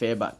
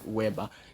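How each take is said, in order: First: The name begins with a V sound. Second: The name begins with a W sound. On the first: The speaker calls it right. "the German they call it the W is what V to them" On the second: The speaker calls it wrong. "we call pronounce as what Weber"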